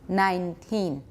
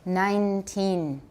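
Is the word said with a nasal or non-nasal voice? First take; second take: non-nasal; nasal. First: The vowels are said with little nasal sound. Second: The vowels are strongly nasal throughout. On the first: "That's not so nasal" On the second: "nasalized all the way through"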